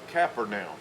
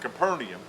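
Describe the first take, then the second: First: It is said with an Israeli Hebrew pronunciation. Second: It is said with a westernized English pronunciation. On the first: "they will call it Capernaum" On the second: "we call it Capernaum"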